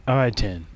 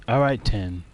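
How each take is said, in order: The two takes are said the same way.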